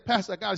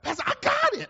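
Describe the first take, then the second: First: It is said in a plain, flat way. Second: It is said with strong excitement.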